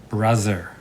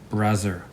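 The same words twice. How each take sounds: No difference in how they are said.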